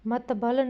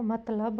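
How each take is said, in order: First: मतबल with b before l, mat-bal; wrong pronunciation. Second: मतलब as mat-lab, l before b; correct pronunciation. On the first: Teacher mimicking pupils' mistake, slightly raised voice. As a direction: swap the consonants in मतबल. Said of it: "मतबल नहीं होगा". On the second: Teacher correcting pupils, calm plain voice. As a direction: say मतलब the standard way. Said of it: "मतलब होगा". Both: Shown as a demonstration.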